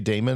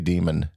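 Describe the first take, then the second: First: The first vowel sounds like 'day'. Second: The first vowel sounds like 'dee'. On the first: The speaker calls it wrong. "Do you say Damon" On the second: The speaker calls it right. "or do you say Demon?"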